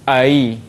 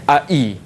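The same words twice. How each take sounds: First: The second vowel starts halfway between stop and y. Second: The second vowel starts with a full glottal stop. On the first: "Tengah-tengah lahir ai" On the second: "Ai itu hamzah uh, sempurna"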